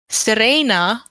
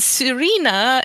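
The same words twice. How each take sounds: First: The name is said the Dutch way. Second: The name is said the English way. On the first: "close to the Dutch pronunciation of it" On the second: "is the English pronunciation"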